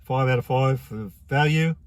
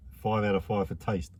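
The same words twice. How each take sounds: First: Five out of five for value drawn out slowly, each word weighed; slow emphatic score. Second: Said in the usual way. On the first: Shown as a demonstration. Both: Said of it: "I'm gonna give it".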